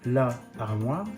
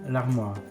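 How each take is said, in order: First: The article's vowel is kept separately. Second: The article's vowel is dropped. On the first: The speaker calls it wrong. "not la armoire" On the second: The speaker calls it right. "but l'armoire"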